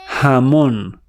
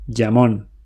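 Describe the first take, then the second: First: It starts with a soft h as in house. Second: It starts with a j sound as in jam. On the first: "Latin Spanish, jamón, like house" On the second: "English speakers say jamón, like jam"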